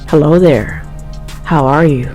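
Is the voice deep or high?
deep. It is said in a deep voice.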